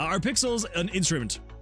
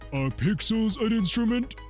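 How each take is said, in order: First: It is said in the speaker's own natural voice. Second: It is said in a put-on cartoon character voice.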